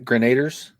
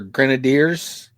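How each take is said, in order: First: The word ends with a 'ders' sound. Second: The word ends with a 'deers' sound. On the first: The speaker calls it wrong. "not grenaders" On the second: The speaker calls it right. "They're grenadiers"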